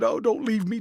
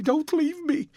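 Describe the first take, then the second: First: High, pleading cry; desperate plea. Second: Much higher, breaking plea; last pleading cry before the sobbing; rising to a sob. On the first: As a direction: beg him to stay. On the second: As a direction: beg once more, even higher and more desperate. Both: A narrator's reading. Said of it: "A fit of passionate sobbing".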